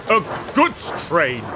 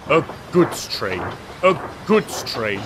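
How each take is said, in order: First: A grumble pushed a little higher; grumbling, rising. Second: A mild, sulky grumble; grumbling. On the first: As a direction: let the grumble climb at the end. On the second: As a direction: grumble it under your breath, lightly. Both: A narrator's reading. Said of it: "he grumbled".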